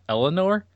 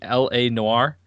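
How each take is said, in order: First: It is run together like the name Eleanor. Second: It starts with the letters L and A. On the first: The speaker calls it wrong. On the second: The speaker calls it right. "You mean L-A-Noir?"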